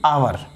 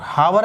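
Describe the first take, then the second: First: The word begins directly with a vowel sound. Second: The word begins with a clear h sound. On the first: The speaker calls it right. "एच silent रहता है" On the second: The speaker calls it wrong. "हावर नहीं"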